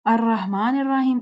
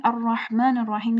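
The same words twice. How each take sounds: First: "الرحمن الرحیم" in everyday light sounds; common recitation. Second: "الرحمن الرحیم" with full, rounded r; contrasting recitation. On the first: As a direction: say "الرحمن الرحیم" without heavy r. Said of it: "اس طرح سے پڑھتے ہیں". ("الرحمن الرحیم" عام، ہلکی آواز میں) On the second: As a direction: make the r heavy in "الرحمن الرحیم". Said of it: "یہ چھ غلطیاں ہو گئیں". ("الرحمن الرحیم" موٹی ر کے ساتھ) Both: Shown as a demonstration.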